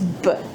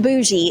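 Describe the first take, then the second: First: The word ends with a hard g sound. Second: The word ends with a soft j-like sound. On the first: The speaker calls it right. "it's Bogue" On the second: The speaker calls it wrong. "It's not bougie"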